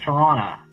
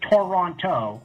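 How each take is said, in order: First: Only the first t is pronounced. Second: Both t sounds are clearly pronounced. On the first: The speaker calls it right. "You only say the key the first time, and then never again" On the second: The speaker calls it wrong. "I get like a weird like cringe. It doesn't sound right to me"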